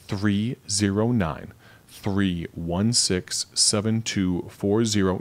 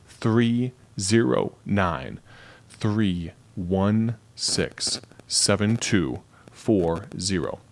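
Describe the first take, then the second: First: It is said at a normal speed. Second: It is said slowly and deliberately.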